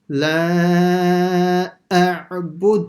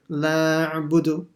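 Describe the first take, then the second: First: The two throat sounds are heard one after another. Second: The two throat sounds run together as one. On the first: The speaker calls it right. "hear the a first, and then the ain separately" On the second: The speaker calls it wrong. "they'll just merge them together"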